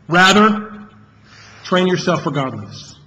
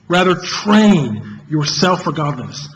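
First: The word "rather" carries the main stress. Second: The word "train" carries the main stress.

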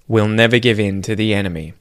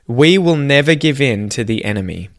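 First: 'Will' is contracted onto the word before it. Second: 'Will' is said in full as its own word. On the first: "say the contracted form" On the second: "the first sentence"

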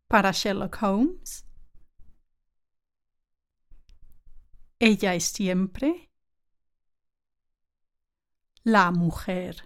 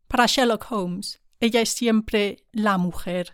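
First: It is said slowly. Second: It is said at normal speed.

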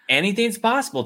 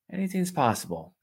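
First: It is said with a hopeful, upbeat tone. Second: It is said with a resigned, cynical tone. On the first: Good things could happen. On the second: Bad things could happen.

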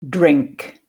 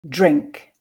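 First: The word starts with a plain 'dr' sound. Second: The word starts with a 'jr'-like sound. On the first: "listen and repeat the dr cluster, pronounced dr. And I find this one quite difficult" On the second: "And now to the dr cluster, pronounced dr"

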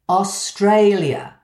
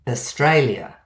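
First: The first and last vowels are full and clear. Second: The first and last vowels are reduced to schwa. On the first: The speaker is being extra clear for a listener. "possibly saying the AU like the O in ostrich and the final A more like the first O in onion, to be clearer" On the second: This is ordinary everyday speech. "our normal pronunciation with a schwa at the beginning and the end"

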